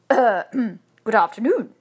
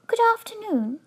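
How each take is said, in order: First: Hesitant reply after clearing the throat; louder, unsure and stalling greeting; doubtful. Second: High, clear little bear; a polite small creature, high-pitched. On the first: Husband answering a talking bear, doubtfully. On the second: Bear greeting the couple politely, in a small clear voice. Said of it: "it said in a small, clear voice". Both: A narrator's reading.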